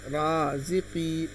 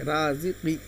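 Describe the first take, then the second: First: The final vowel is drawn out long. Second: The final vowel is short and quick. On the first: "तो हम इसको खींच कर पढ़ेंगे" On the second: "इसको भी जल्दी पढ़ेंगे"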